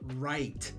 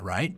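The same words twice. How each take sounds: First: The word is said in a longer, drawn-out way. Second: The word is said in a shorter, clipped way. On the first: The speaker calls it wrong. "It does not like the word right, at least when I say it" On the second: The speaker calls it right. "Like that. It's shorter, yeah. The Howard Stern right"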